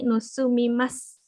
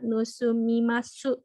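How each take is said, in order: First: The final u vowel is dropped. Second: The final u vowel is clearly pronounced. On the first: The speaker calls it right. "tapi nusumimas" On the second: The speaker calls it wrong. "enggak dibaca nusumimasu"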